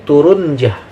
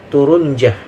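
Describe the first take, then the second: The two takes are said the same way.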